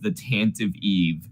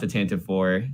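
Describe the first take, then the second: First: The name ends with the word 'eve'. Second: The name ends with the word 'four'. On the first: The speaker calls it right. "It's actually pronounced the Tantive Eve" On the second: The speaker calls it wrong. "not the Tantive Four"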